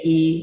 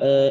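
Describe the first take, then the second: First: The vowel is a closed i sound. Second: The vowel sits between a and e. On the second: "imalah sugro atau taklil"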